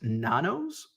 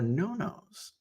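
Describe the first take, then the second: First: The first vowel sounds like 'ah'. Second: The first vowel sounds like 'oh'. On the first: The speaker calls it wrong. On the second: The speaker calls it right.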